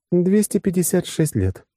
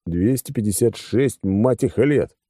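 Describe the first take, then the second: First: High-pitched female character voice; woman's factual answer. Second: Slow, weighted «Двести пятьдесят шесть», breaking before «лет»; impressed repetition. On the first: Acted. Woman telling the man how long it has been, high voice. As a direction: state the figure high and evenly. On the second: A narrator's reading. Narrator impressed by the span, «Двести пятьдесят шесть» said slowly and heavily. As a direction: draw out «шесть» in amazement, pause, then «лет». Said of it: "Да и я сам впечатлился".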